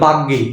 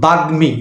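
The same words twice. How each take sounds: First: The m after g is dropped or assimilated. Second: The m after g is clearly pronounced. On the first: The speaker calls it wrong. "অনেকে বলে" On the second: The speaker calls it right. "No, বাগ্মী"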